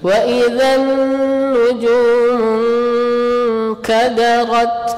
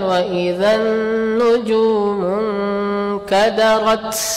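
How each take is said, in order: First: The final t has a slight puff of air. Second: The final t has a strong puff of air. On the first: The speaker calls it right. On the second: The speaker calls it wrong.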